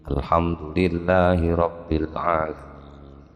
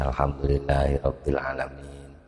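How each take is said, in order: First: It is said in a heavy, emphatic voice. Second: It is said in a plain, everyday voice.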